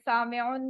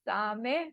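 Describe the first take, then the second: First: The word ends with an added 'un' sound. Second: The word ends without a final 'un' sound. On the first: "आखिर में आप लगा सकते हैं पेश, दो पेज" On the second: "वो दोनों साइलेंट करेंगे ना तो बोला नहीं जाएगा"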